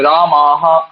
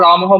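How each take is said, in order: First: The first vowel is drawn out long. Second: The first vowel is cut short. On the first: It is heard as the plural form. The speaker calls it right. "দীর্ঘতে সবসময় সময় দেবে।" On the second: It sounds like the singular form. The speaker calls it wrong. "যদি আমি রামাহাটাও রামহ বলি"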